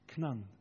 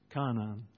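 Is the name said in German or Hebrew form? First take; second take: Hebrew; German. First: It is said as one short syllable, Knan. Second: It is said with full vowels, Ka-na-an.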